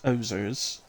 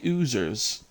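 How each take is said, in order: First: The first vowel is an oh sound. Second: The first vowel is a long oo sound. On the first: This is how someone else says the name. "somebody else is saying it's ozers" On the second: This is how the speaker says the name. "I say oozers"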